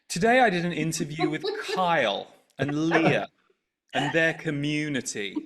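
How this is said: The tone is slanted and disparaging. The listener is meant to dislike the people mentioned. "I want you to dislike Kyle and Leah and the community in this second"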